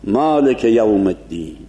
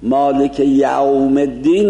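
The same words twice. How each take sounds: First: مالک with a clear bright a. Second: مالک with a rounded open o-like a; wide Persian fatha. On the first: Teacher shows the right مالک یوم الدین. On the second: Teacher shows the wrong مالک یوم الدین. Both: Shown as a demonstration.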